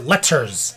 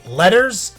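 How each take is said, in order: First: The middle T is a crisp T. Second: The middle T sounds like a D. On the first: The speaker calls it wrong. "like some fucking insane person" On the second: The speaker calls it right. "T's are pronounced like D's"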